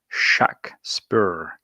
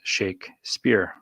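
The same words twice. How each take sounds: First: The name is said in a variant pronunciation. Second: The name is said in the standard pronunciation. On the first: This is the name of the man from Stratford. "The pronunciation indicated by the Stratfordian spellings would be" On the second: This is the name of the author. "the author's name, pronounced"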